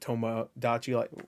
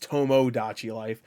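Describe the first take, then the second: First: The first syllable is said fast and reduced. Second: The first syllable is said clearly as 'to'. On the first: "because I'm saying it fast, it sounds like" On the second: "I know it's Tomodachi Life"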